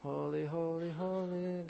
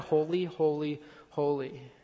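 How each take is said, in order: First: It is said quietly with little energy. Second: It is said loudly with great energy. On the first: The worship is sleepy and half-hearted. The speaker calls it wrong. "the Sunday morning 8:30 service worshipers who are just like" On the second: The worship is full of excitement. The speaker calls it right. "they cry"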